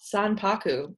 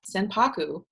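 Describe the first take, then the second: First: The first syllable is said like 'san'. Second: The first syllable is said like 'sen'. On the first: "With a san" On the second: "Who knows if I'm saying it right?"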